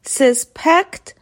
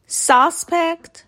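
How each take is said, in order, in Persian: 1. تکیه روی هجای دوم است. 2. تکیه روی هجای اول است. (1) "ورب به معنی مظنون بودن" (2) "نونه به معنی مظنون"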